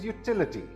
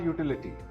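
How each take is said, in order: First: The stress is on the second syllable. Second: The stress is not on the second syllable. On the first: The speaker calls it right. "The second syllable is stressed" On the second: The speaker calls it wrong. "This word is not utility"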